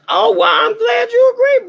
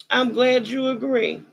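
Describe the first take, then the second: First: Higher and louder, delighted; excited shout. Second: Said in the usual way. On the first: Real, not acted. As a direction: burst out gleefully. Shouted reply to the audience.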